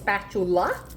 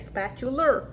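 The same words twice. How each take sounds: First: The word is pronounced in the standard way. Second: The word is pronounced like a cartoon character. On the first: The speaker calls it right. "It's spatula" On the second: The speaker calls it wrong. "I love how SpongeBob says it, so that's how I say it"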